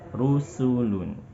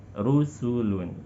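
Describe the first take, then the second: Both takes have the same delivery.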